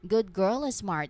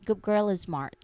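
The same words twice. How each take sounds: First: Good ends in a clear D sound. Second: Good ends in a G sound. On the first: "If you pronounce it slowly, you make a clear D sound" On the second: "when people say this phrase naturally ... it very often sounds like good girl"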